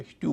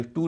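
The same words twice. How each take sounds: First: स्ट्यू said as "styoo"; correct y-glide. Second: स्टू said as "stoo"; no y after the t in स्टू; wrong-example स्टू, straight t to oo; mistaken oo sound. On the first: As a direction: put a y after the t in स्ट्यू. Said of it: "स्ट्यू कहेंगे". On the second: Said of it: "इसे स्टू नहीं कहेंगे". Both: Shown as a demonstration.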